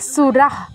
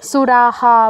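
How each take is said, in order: First: The final h is a short half breath. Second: The final h is full, with an echoed vowel. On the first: A consonant follows the visarga. "এই ক্ষেত্রে হবে half হ" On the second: A vowel follows the visarga. "স্বরবর্ণ যদি পরে থাকতো বিসর্গের উচ্চারণ পূর্ণ হ এর মতো হতো"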